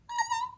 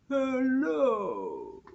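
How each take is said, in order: First: It is said in a high voice. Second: It is said in a low voice.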